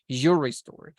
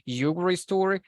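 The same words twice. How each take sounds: First: The middle syllable is dropped, said quickly. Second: Every syllable is pronounced fully and clearly. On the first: "especially when you speak very fast" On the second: "if you want to say Yuri story, that's fine"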